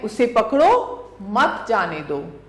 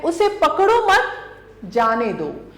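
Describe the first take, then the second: First: There is a pause right after 'pakdo'. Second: There is a pause right after 'mat'. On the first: "पहला है" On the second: "दूसरा है"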